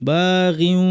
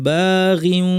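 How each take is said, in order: No difference in how they are said.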